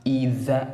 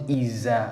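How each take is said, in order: First: The middle consonant is a soft 'th' sound. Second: The middle consonant is a sharp 'z' sound. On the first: The speaker calls it right. "it becomes either" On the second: The speaker calls it wrong. "not iza, not sharp"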